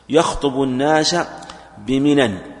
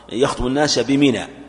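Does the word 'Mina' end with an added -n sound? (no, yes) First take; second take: yes; no. First: Mina ends with an added -n sound. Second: Mina ends in a plain long vowel. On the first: The place is meant as a town. "منى تصرف" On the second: The place is meant as a plot of land. "ولا تصرف"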